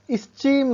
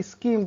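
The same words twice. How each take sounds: First: स्कीम said as "is-cheem" with a ch; स्कीम said the wrong way, with ch; wrong "ch" sound. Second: स्कीम said as "skeem" with a hard k; स्कीम said the right way, hard k; correct k sound. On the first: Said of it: "स्कीम नहीं पढ़ेंगे". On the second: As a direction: hit a clean k in स्कीम, no ch. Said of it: "स्कीम पढ़ेंगे". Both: Shown as a demonstration.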